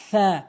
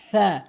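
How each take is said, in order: First: The tongue tip touches the teeth, th-like. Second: The tongue tip touches the teeth, th-like.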